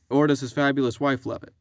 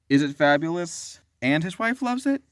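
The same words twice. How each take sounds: First: "fabulous wife" run together as one phrase. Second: "is it fabulous," then "and his wife loves it"; comma after fabulous. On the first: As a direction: stress on "Or", "fabulous wife" as subject. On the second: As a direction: pause after "fabulous", stress on "fabulous". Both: Shown as a demonstration. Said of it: "So the question is".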